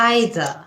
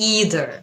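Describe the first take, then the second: First: The word is said in a British accent. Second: The word is said in an American accent. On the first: "আইদার এটা হচ্ছে British উচ্চারণ" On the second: "ইদার এটা হচ্ছে American উচ্চারণ"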